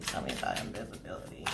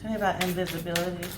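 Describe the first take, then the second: First: Soft unvoiced whisper to Spirit. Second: Said in the usual way. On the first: Real, not acted. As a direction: breathe the question to Spirit in a whisper.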